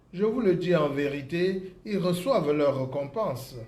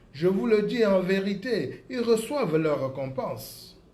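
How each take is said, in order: No difference in how they are said.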